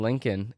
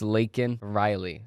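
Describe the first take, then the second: First: The name starts with the sound 'link'. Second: The name starts with the sound 'lake'. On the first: The speaker calls it wrong. "It's not Lincoln like Abraham Lincoln" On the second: The speaker calls it right. "That's how you say her name"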